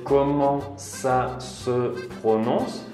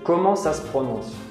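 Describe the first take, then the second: First: The first word is said in full, more slowly. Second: The first word is shortened and run together quickly. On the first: "se escribe comment ça se prononce" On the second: "lo decimos más rápido"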